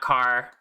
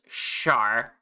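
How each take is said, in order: First: The name starts with a hard k sound. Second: The name starts with a soft sh sound. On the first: The speaker calls it wrong. "not Car" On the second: The speaker calls it right. "My name is pronounced Shar"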